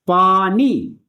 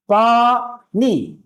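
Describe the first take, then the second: First: Said in the usual way. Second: पानी drawn out very slowly, पा and नी split apart; syllable by syllable. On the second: Shown as a demonstration. Teacher splits पानी into syllables for pupils. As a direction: stretch पानी into two separate syllables, पा then नी. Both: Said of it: "पा की आवाज अलग आती है और नी की आवाज अलग आती है".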